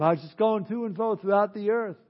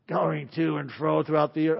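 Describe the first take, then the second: First: Offhand reply, lighter and higher than a devil voice; casual Satan. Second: Devil voice. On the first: Satan telling God where he has been, casual offhand voice. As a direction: play Satan casually shrugging off the question. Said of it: "you can almost picture him". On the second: Satan answering God where he has been, put-on devil voice. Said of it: "probably doesn't have a voice like that". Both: Acted.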